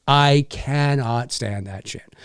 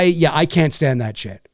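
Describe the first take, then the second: First: "I cannot stand that shit" slowed, each word weighted; slow down and lean on "cannot"; emphatic slow repeat. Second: Said in the usual way. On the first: Real, not acted. Telling the viewers he hates it, slow heavy "cannot".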